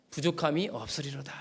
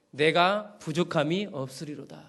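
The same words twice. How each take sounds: First: "부족함이 없으리로다" repeated softer, as an echo. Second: Said in the usual way. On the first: Shown as a demonstration. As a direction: let "부족함이 없으리로다" fall to a quiet reflective repeat. ("부족함이 없으리로다"를 조용히 되뇌듯)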